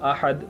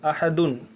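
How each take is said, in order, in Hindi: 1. शब्द सादी d आवाज़ पर खत्म होता है। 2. शब्द में पूरा -un अंत है। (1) "यहाँ रुक जाएंगे तो" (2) "लिखा है"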